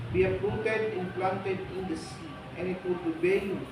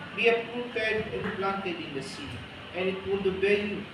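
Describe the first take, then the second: No difference in how they are said.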